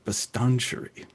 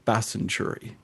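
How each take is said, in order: First: The T in the middle is clearly sounded. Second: The T in the middle is silent. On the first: This is how the navigation voice reads the name. "she goes, turn left on Bastanchuri" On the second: This is how local residents say the name. "by the locals, we call it Basenchuri. And it has a silent T in it"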